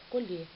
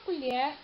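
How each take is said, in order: First: The stressed e is closed. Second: The stressed e is open. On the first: It is a verb meaning to harvest. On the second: It is a noun meaning a spoon.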